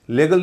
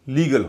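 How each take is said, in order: First: The first vowel sounds like 'eh'. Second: The first vowel sounds like 'ee'. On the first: The speaker calls it wrong. "लेगल नहीं हो रहा" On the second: The speaker calls it right. "लीगल हो रहा है"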